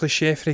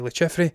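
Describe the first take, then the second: First: The name is pronounced the French way. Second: The name is pronounced the English way. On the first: "I'm going to say it's Le Chiffre because it's French" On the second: "Everyone else would say Le Chiffre"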